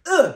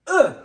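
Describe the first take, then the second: Both takes have the same delivery.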